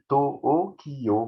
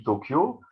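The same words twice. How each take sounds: First: To-o-ki-yo, very slow, each mora separate, the o held long; Tokyo split into morae. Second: Said in the usual way. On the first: Shown as a demonstration. Lecturer showing audience Japanese morae, To-o-ki-yo very slow. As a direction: spell out To-o-ki-yo beat by beat. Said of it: "il y a quatre morts". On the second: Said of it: "quand je vous dis Tokyo".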